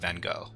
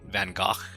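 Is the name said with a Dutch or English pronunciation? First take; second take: English; Dutch. First: The name is said with an English pronunciation. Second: The name is said with a Dutch pronunciation. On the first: This is the form adapted for English speakers. "so they just anglicize it and they you know turn into Van Gogh" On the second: This is the native form that is hard for English speakers. "asking English speakers to say Van Gogh is not super realistic"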